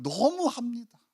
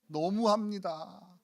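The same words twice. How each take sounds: First: Higher 너무합니다 with sharp indignation; indignant reproach. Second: Slow, softer 너무합니다 drawn out in reproach; hurt reproach. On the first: Pastor showing the title's nuance, higher indignant reproach. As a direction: fling 너무합니다 back as an accusation. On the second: Pastor showing the title's tone, slow hurt reproach. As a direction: say 너무합니다 slowly like a wounded sigh. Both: Shown as a demonstration. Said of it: "뉘앙스가 이거예요".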